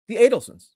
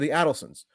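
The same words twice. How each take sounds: First: The first syllable does not sound like 'add'. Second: The first syllable sounds like the word 'add'. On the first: The speaker calls it wrong. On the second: The speaker calls it right.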